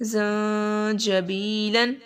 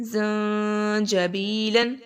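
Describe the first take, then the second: Both takes have the same delivery.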